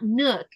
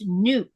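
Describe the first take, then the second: First: The vowel is short and clipped. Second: The vowel is long and drawn out. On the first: The speaker calls it wrong. "it's not nook" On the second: The speaker calls it right. "it's nuke"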